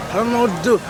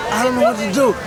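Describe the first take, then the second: No difference in how they are said.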